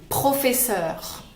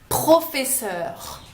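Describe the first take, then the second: The two takes are said the same way.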